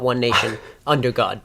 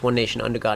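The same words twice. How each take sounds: First: There is a pause after nation. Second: It flows without a pause after nation. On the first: The speaker calls it wrong. "not one nation under God" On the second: The speaker calls it right. "It's one nation under God"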